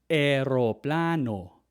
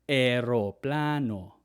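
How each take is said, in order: Both takes have the same delivery.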